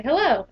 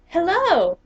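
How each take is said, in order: First: Said in the usual way. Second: Imitating an old man's loud, high British hello; a bright British English greeting, called out. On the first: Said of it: "I say". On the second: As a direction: mimic a cheerful elderly Englishman saying hello in a British accent. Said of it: "Very British English".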